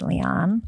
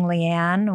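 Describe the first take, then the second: First: Leon said as LEE-on; Leon, the author's own way; correct pronunciation. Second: Leanne said as lee-ANN in a New Jersey accent; New Jersey pronunciation. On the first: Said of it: "and it's Leon". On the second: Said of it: "with a New Jersey accent". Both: Shown as a demonstration.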